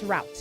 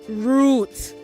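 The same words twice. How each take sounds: First: It is pronounced the American way. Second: It is pronounced the British way. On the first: The speaker calls it wrong. "not route. You're not American" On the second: The speaker calls it right. "say route"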